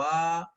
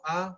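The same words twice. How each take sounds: First: The vowel is held about twice as long. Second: The vowel is held only briefly. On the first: "la que duraba un poquito más le ponía Trivikram" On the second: "la forma del señor eh, Vamana, que era enano"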